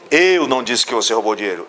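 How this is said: The stress is on the word eu.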